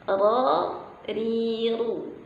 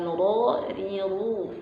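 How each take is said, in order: First: The syllables are made with the tongue, lips unrounded. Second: The syllables are made with rounded, protruding lips. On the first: The speaker calls it right. "hanya lidah kita yang naik ke langit-langit, tidak menggunakan bibir" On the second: The speaker calls it wrong. "bukan ... nah tidak boleh"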